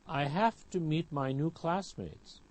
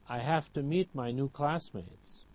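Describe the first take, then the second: The two takes are said the same way.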